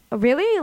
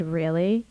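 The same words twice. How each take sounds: First: Higher, intrigued "oh, really?"; curious lilt, pitched up; interested. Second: Low-key questioning "really?"; understated surprise, lifting at the end; mild disbelief. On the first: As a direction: perk up with sudden interest. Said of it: "Like, interested". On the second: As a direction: ask it as if you've never been told that. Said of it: "as if no one's ever said that to him before". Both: Retold or imitated.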